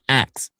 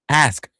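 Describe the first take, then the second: First: The word ends with a 'ks' sound. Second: The word ends with an 'sk' sound. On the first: The speaker calls it wrong. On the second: The speaker calls it right.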